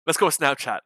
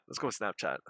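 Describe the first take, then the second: First: Said in the usual way. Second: Low, soft muttered repeat; low quiet aside. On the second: Acted. Repeats the suggestion differently.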